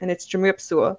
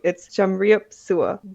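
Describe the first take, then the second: First: It is said at normal speed. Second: It is said slowly.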